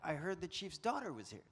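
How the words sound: The word daughter is strongly stressed.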